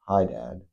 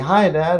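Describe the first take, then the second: First: The greeting sounds flat and unenthusiastic. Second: The greeting sounds lively and excited.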